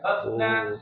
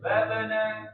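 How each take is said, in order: First: The b is held without a bounce. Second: The b is released with a bounce. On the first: The speaker calls it wrong. "Tidak babna" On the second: The speaker calls it right. "Jadi tidak tertahan... mantulnya itu otomatis"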